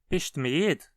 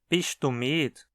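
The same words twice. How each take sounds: First: The pronoun is not heard at all. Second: The pronoun is said fully with a short vowel. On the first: "vai soar como se nem houvesse mais pronome ali" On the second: "Ele continua sendo pronunciado tu, só que sempre com uma vogal curta"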